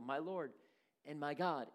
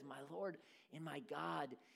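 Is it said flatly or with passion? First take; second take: flatly; with passion. First: It is said flatly, without spirit. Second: It is said with strong passion.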